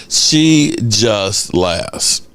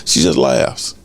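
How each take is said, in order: First: She just laughs very slowly; slow deadpan. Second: Said in the usual way. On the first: Real, not acted. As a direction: drag it out deadpan. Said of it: "drawn out repeat". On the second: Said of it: "repeated slower".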